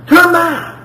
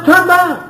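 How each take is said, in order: First: Higher, pleading repeat of Turn back; emotional plea. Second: Higher, pleading call to turn back; emotional plea. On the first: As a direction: ask it again, still begging. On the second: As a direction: beg them to come home. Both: Acted. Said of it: "God is getting emotional here".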